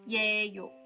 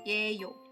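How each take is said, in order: First: The word begins with a 'ye' glide sound. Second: The word begins with a 'ye' glide sound.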